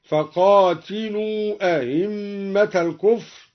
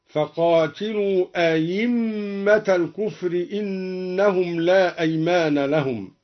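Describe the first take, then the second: First: أئمة with the second hamza softened, slow; eased hamza. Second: أئمة said ayimma, the hamza a clear y. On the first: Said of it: "قرأ الدوري بتسهيل الهمزة الثانية". (أئمة بتسهيل الهمزة الثانية) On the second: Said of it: "أو إبدالها ياء خالصة". (أئمة بإبدال الهمزة ياء خالصة: أَيِمَّة) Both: Shown as a demonstration.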